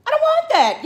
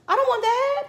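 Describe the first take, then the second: First: Even higher, louder, stress on want; louder refusal. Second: High, loud no; loud refusal. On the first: Refusing the vaccine again, louder. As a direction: push the refusal harder. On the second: Refusing the vaccine, loud. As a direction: refuse it flatly, raised voice. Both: Real, not acted.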